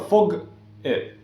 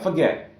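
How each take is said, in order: First: The g sound ends the first syllable. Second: The g sound starts the second syllable. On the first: The speaker calls it wrong. "it's never fog it" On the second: The speaker calls it right. "So it's two syllables, and you should end in a vowel"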